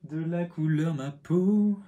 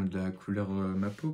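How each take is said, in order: First: High, slow, silly voice repeating his own phrase; mock himself by drawling it out higher and louder; mocking own words. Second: Said in the usual way. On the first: Shown as a demonstration. Parroting his own clumsy phrase to viewers, mocking. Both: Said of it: "ça ne veut rien dire".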